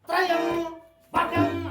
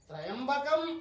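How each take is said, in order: First: The word is split into two with a pause. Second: The word is said joined without a pause. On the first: The speaker calls it wrong. "విడివిడిగా చదవకూడదు" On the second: The speaker calls it right. "కలిపి పలకాలి"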